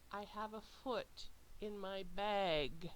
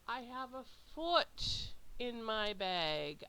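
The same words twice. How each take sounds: First: No single word is especially stressed. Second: The word foot is stressed and louder.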